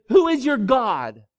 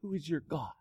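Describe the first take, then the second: First: Loud, higher, slow demand; prophet's loud challenge. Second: Softer, hushed echo of the question; the question repeated softly to the congregation; quiet repeat. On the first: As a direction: hurl the question at the people. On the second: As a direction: let it sink in quietly. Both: Acted. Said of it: "and said".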